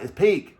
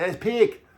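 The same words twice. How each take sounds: First: Said in the usual way. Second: High-pitched Irish take on "peak"; mock Irish accent. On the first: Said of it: "I'm like". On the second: Irish girlfriend repeating slang he misheard, "peak" in a high mock Irish accent. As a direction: imitate her Irish way of saying "peak", pitched up. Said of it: "did not sound like she said peak".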